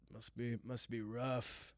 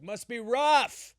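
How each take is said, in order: First: Said in the usual way. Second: High, loud, slow yell; screamed. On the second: Retold or imitated. At the gas station, yelling at the kid with a high, loud scream. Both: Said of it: "That's what I screamed at him".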